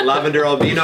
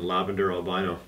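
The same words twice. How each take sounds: First: Albino said al-BEE-no. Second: Albino said al-BY-no; usual North American albino. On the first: Shown as a demonstration. Correcting the word for a UK host, albino said al-BEE-no. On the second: Real, not acted. Listing the breeder's projects, albino said al-BY-no. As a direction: say albino with a long "eye" in the middle. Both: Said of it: "said it the U K way".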